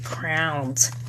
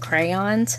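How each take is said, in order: First: Crayons is said the way a Philadelphian says it. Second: Crayons is said the general, usual way. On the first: This is how someone from Philadelphia says it. "she was from Philly and she always said crowns" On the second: This is the usual way to say it. "you mean crayons?"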